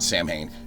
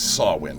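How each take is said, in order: First: The word is said in a non-Gaelic way. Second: The word is said in the Gaelic way. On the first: This is how the movie series said it. The speaker calls it wrong. "It is not Samhain" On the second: This is the traditional Gaelic form. The speaker calls it right. "That is a Gaelic pronunciation. That's the way it's supposed to be"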